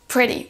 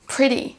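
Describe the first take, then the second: The two takes are said the same way.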